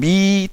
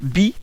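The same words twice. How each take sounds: First: The vowel is drawn out long. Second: The vowel is short and clipped.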